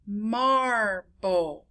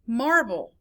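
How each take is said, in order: First: Marble drawn out as mar, ble; two separate beats in Marble; syllable by syllable. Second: Said in the usual way. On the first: Shown as a demonstration. Teacher counting syllables, Marble broken in two. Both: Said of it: "many syllables it is".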